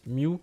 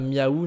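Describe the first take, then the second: First: The name is one short syllable, like 'mew'. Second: The name is two syllables, like a cat's 'meow'. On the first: The speaker calls it right. "si ça se prononce Mew" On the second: The speaker calls it wrong. "C'est pas Miaou, il me semble, parce que là, ça fait vraiment trop, euh, trop chat"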